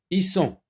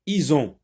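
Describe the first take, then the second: First: Isson with a hissed s between the vowels; S sound. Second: Ison with a voiced z between the vowels; Z sound. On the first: Teacher reading the syllables aloud, Isson with an S sound. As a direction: say Isson with a clean s. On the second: Teacher reading the syllables aloud, Ison with a Z sound. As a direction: say Ison with a buzzing z. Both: Shown as a demonstration. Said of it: "S se prononce Z".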